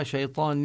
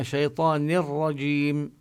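First: شيطان with the final nun clearly pronounced; the wrong way: sound the nun in شيطان before رجيم; teacher's wrong example of شيطان, nun not merged. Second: شيطان رجيم with the nun dropped into a doubled ر; teacher's correct شيطان رجيم, ra doubled; nun merged into ra. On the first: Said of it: "لا نلفظها". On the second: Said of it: "إنما". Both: Shown as a demonstration.

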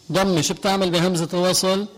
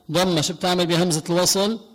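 No difference in how they are said.

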